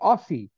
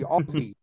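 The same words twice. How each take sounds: First: The middle consonant is an s sound. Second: The middle consonant is a z sound. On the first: It follows the spelling. The speaker calls it wrong. "it's spelled A-U-S-S-I-E. So you think Aussie" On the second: It is how Australians say it. The speaker calls it right. "But we pronounce it O-Z-Z-I-E"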